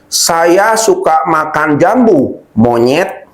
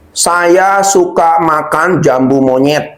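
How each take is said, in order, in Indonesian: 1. Ada jeda sebelum kata terakhir. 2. Mengalir tanpa jeda sebelum kata terakhir.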